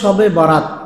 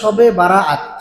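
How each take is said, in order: First: The second word is said in two short syllables. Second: The second word is said in three drawn-out syllables. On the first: The speaker calls it wrong. "এই উচ্চারণটা ভুল" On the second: The speaker calls it right. "বলতে হবে শবে বারাআত"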